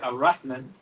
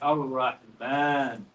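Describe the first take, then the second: First: The vowel before the final n is short. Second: The vowel before the final n is long. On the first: The speaker calls it wrong. "we don't say" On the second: The speaker calls it right. "We say"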